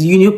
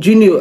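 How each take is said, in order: First: The word begins without a J sound. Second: The word begins with a J sound.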